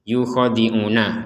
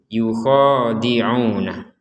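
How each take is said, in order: First: The long vowels are held only one beat. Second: The long vowels are held for two beats. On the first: The speaker calls it wrong. "yukhadi'una itu satu harokat" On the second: The speaker calls it right. "kalau dibaca dua harokat"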